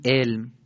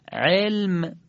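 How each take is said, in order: First: علم opening on a simple vowel, as in Persian; everyday Persian علم, first letter read like a hamza; Persian alef reading. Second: علم with a thick throaty Arabic ع at the start; Arabic ayn. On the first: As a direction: say علم with alef for ع, no throat squeeze. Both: Shown as a demonstration.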